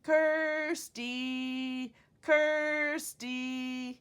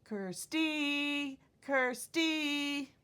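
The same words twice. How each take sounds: First: "Kirsty" called out loud, first syllable held long; loud sing-out "Kirsty", weight on KIR; stress on first syllable. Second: "Kirsty" called out loud, last syllable held long; high, loud "Kirsty", weight thrown onto STY; stress on second syllable. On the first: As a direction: call a dog, stretching the KIR in "Kirsty". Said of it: "So let's try calling me". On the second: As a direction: call a dog wrongly, leaning on STY in "Kirsty". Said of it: "I wouldn't be calling my dog". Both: Shown as a demonstration.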